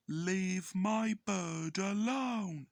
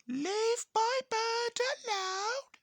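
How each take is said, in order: First: A lightly voiced owner, slow and firm; drawn-out protective warning, barely changed voice; Emo Skull voiced slowly. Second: Very high, loud squawking parrot. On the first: Emo Skull warning the narrator off his parrot, slow and firm. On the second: Retold or imitated. Cheeky the parrot copying its owner, shrill squawk. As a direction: screech it out like a talking parrot, slow.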